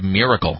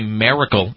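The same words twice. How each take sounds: First: The first vowel sounds like an 'i'. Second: The first vowel sounds like an 'a'. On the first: The speaker calls it right. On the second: The speaker calls it wrong.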